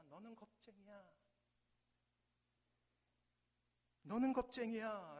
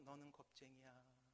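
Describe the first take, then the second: First: Put-on child's angry yell, louder on the second; angry shout. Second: Much softer distant echo of the insult; faint echo. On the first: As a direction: hurl the insult in anger. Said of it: "소녀는 화가 납니다". (화난 아이의 외침) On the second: Acted. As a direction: let it come back from far away. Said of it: "저 멀리서". (멀리서 돌아오는 메아리)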